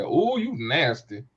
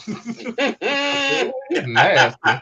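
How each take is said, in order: First: Slow drawn-out tease; slow playful tease at a friend's flirty joke; teasing. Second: High laughing ooh, then a louder nasty; high giggling tease at a friend's flirty joke. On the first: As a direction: stretch the ooh out slowly, ribbing her. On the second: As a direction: break into laughter mid-tease. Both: Retold or imitated. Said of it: "I said".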